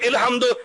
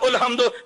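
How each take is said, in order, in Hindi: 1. यह शब्द i स्वर से शुरू होता है। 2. यह शब्द u स्वर से शुरू होता है। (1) "मैं कहता हूं इल्हम्दु" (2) "ये कहते उल्हम्दु"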